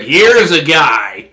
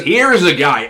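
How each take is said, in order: First: Slow, louder broadcaster drawl on "Here is a guy"; Chris Collinsworth impression. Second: Louder broadcaster read of "Here is a guy"; lightly voiced commentator catchphrase; Chris Collinsworth impression. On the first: Imitating the announcer for viewers, slow and louder. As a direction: stretch it like a football color commentator. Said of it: "he's always like". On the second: Repeating the announcer's catchphrase, a touch louder. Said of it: "He says".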